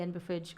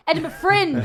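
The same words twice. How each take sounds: First: Said in the usual way. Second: "Edinburgh Fringe" said higher and louder with a falling end; emphatic correction. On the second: Shown as a demonstration. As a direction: punch out "Edinburgh Fringe", pitch up and firm.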